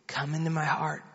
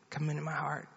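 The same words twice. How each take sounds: First: Lightly voiced mother giving a prayer line; retold prayer, soft and low, spoken for repeating; mother leading prayer. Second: Much softer, low imitation of a child repeating; retold child's quiet repeat; child echoing prayer. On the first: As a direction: lead a child gently in prayer. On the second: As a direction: echo the prayer line in a hushed voice. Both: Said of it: "You just pray after me".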